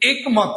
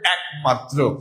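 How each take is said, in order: First: The first vowel is a closed e sound. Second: The first vowel is an open, æ-like sound. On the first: The speaker calls it wrong. "অশুদ্ধ ভাবেই শুদ্ধটা উচ্চারণ করতে যান খুব strongly, তখন একমাত্র বলেন, কিন্তু একমাত্র হবে না" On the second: The speaker calls it right. "হবে একমাত্র ... তার মানে এটা কি বিবৃত"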